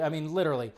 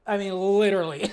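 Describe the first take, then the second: First: Said in the usual way. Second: "literally" punched louder and higher; exasperated loud "I mean, literally"; emphatic literally. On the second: Real, not acted. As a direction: lean hard on "literally".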